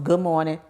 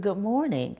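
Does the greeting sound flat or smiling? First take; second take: flat; smiling. First: It is said flatly, without a smile. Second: It is said warmly, with a smile. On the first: The speaker calls it wrong. "it goes from" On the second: The speaker calls it right.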